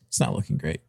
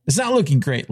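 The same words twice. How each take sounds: First: Softer and lower, ominous; quiet grim repeat. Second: Said in the usual way. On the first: Shown as a demonstration. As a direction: drop the voice, grim warning. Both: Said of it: "Let's just say this".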